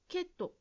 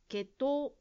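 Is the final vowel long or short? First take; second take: short; long. First: The final vowel is short. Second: The final vowel is long. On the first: The speaker calls it wrong. "ジムさんは血統と言っているように聞こえました" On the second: The speaker calls it right. "最後のうを気をつけて言うようにしましょう"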